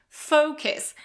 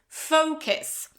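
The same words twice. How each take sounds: Both takes have the same delivery.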